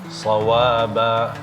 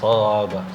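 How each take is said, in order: First: The vowel after the w is held long. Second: The vowel after the w is cut short. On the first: The speaker calls it right. "Kasih haknya waw" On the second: The speaker calls it wrong. "Kenapa shawaba?"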